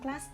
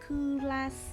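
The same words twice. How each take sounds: First: It is said as a single English syllable. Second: It is said with extra Korean-style syllables. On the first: "Ở trong tiếng Anh thì mình sẽ đọc là" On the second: "ở tiếng Hàn thì sẽ phiên âm là"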